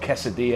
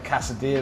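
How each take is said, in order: First: The word is said in a Spanish-style way. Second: The word is said in an anglicized way. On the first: The speaker calls it right. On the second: The speaker calls it wrong.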